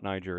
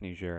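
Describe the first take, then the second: First: The name is pronounced in an English way. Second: The name is pronounced in a French way. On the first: The speaker calls it wrong. "it's not Niger" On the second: The speaker calls it right. "That's the right way to say it. That's the French way to say it"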